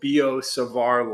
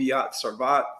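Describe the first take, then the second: First: The name ends like bizarre, without t. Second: The name ends with a clear t sound. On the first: The speaker calls it right. "Savar, because it rhymes with bizarre" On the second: The speaker calls it wrong. "don't call it Biot-Savart"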